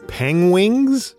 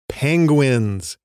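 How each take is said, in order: First: The word is pronounced with a distorted, odd sound. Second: The word is pronounced in the ordinary standard way. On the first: The speaker calls it wrong. "how award-winning British actor Benedict Cumberbatch tries to say the word penguins" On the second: The speaker calls it right. "Say it with me, Benedict"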